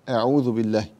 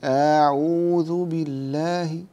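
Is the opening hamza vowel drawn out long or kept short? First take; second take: short; long. First: The opening hamza vowel is kept short. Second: The opening hamza vowel is drawn out long. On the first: The speaker calls it right. "لا،" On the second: The speaker calls it wrong. "لا تمد الهمزة، لا تقول"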